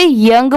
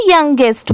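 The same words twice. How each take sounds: First: "यंग" as one syllable; young pronunciation. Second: "यंगेस्ट" with an added "est" ending; youngest pronunciation. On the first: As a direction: say "यंग", ending on the NG sound. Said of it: "तो इसे यंग पढ़ेंगे". ("यंग", एक ही syllable में) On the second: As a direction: say "यंगेस्ट" in two syllables, ending in ST. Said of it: "तो इसे यंगेस्ट पढ़ेंगे". ("यंगेस्ट", आखिर में "एस्ट" जोड़कर) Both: Shown as a demonstration.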